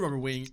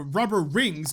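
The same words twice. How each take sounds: First: "rubber wing" with W in place of R; tongue-tied, "wing" slipping out for rings; slip of the tongue. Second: Said in the usual way. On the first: Real, not acted. Gamer listing items to craft, stumbles into "rubber wing". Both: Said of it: "God, learn how to speak".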